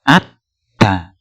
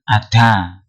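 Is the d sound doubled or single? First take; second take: doubled; single. First: The d sound is held and doubled. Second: The d sound is short and single. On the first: The speaker calls it right. "tetapi ada" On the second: The speaker calls it wrong. "bukan ada"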